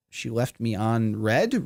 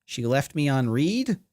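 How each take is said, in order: First: Red, said like the colour; reading the word as red. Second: Read, said like reed; corrected to read. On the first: Real, not acted. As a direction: say it as red, rhymes with bed. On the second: Shown as a demonstration. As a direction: say it as read, rhymes with need. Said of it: "Or read".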